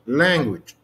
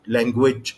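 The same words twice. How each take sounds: First: The stress is on the first syllable. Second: The stress is on the second syllable. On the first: The speaker calls it right. "على المقطع الاول" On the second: The speaker calls it wrong. "حطيت الاستريس على المقطع الثاني"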